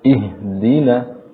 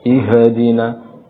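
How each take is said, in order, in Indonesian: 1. Bunyi h biasa saja, tanpa gema atau pantulan. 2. Bunyi h diberi pantulan tambahan. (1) "seharusnya ihdina, jangan dipantulkan" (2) "kesalahan berikutnya pada huruf ha adalah dipantulkan"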